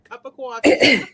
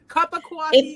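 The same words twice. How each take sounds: First: It is said in a New York accent. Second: It is said in a plain accent.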